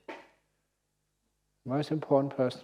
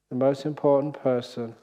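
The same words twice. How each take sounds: First: Slow emphatic repeat. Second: Said in the usual way. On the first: Shown as a demonstration.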